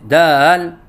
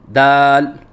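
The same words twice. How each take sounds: First: The vowel wavers up and down in pitch. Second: The word is said slowly with a steady vowel. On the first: The speaker calls it wrong. "लहराव के साथ कहते हैं" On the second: The speaker calls it right. "लफ्ज़ दाल को बिल्कुल आहिस्ता बोलें"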